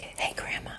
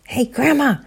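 First: Hushed whispered call; soft whispered hey. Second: Higher, louder call of Grandma; raised call. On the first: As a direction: whisper it to test she's asleep. Kids testing if grandma sleeps. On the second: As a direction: call out to wake her. Kids calling louder. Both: Acted.

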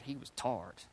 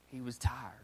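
First: "tarred" for tired, said with a broad "ar"; Southern-style "tarred", one flattened syllable; drawled "tarred". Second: Said in the usual way. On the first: Shown as a demonstration. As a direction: say "tarred" in place of tired, low and hushed.

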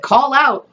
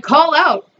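First: Said in the usual way. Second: Higher, raised call into the dark. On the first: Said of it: "I said". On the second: Retold or imitated. Calling to the fallen neighbor in the dark, a raised call. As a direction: call out across the dark street. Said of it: "So I'm like".

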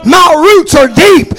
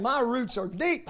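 First: Roots punched, loud and slow; shouted declaration. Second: Quiet confession. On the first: Preacher defying the storm before his congregation, shouted slowly. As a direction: bellow it like a defiant oak. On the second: Aging preacher telling the church of his trials, softly. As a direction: say it almost to yourself, worn but sure. Quiet personal refrain, near whisper. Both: Acted.

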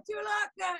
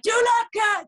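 First: High shout, dropping in level. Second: High, loud furious demand; angry yell. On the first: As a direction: shout the question again, fading. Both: Retold or imitated. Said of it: "he gets really pissed off".

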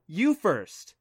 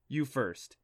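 First: Higher, louder insistent retort. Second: Said in the usual way. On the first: Acted. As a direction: insist right back. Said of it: "she insisted".

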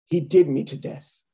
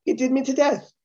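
First: Imitating an actress's poor Irish accent; bad Irish accent. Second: Higher-pitched, quick Irish lilt; genuine Irish accent. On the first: Comic quotes the actress's line, bad Irish accent. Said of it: "It's when she said". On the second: Retold or imitated. Comic shows how Irish people say it, Irish accent. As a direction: toss it off high, like an Irish native. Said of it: "which an Irish person would go".

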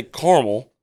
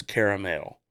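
First: Caramel clipped to two syllables, KAR-mul. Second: Caramel with all three syllables, KAIR-uh-mel. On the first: Host explaining the A in the middle, KAR-mul. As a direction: say caramel short, the wrong way. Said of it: "can't say caramel". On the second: Host giving the right way, KAIR-uh-mel. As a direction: sound out caramel properly. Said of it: "It's caramel". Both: Shown as a demonstration.

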